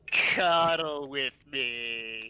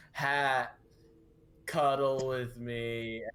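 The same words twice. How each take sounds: First: Slow, flat, lifeless monotone. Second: Slow flat monotone voice; deadpan, no feeling at all. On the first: Retold or imitated. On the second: Acted. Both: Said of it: "Just in that flat monotone voice".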